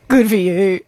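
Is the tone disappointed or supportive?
disappointed. It sounds let down and disappointed.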